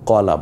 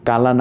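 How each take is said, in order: First: The first vowel is a dark, 'o'-like sound. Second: The first vowel is a clear, open 'a'. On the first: The speaker calls it right. "কলা বলছি" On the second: The speaker calls it wrong. "কালা না বলে"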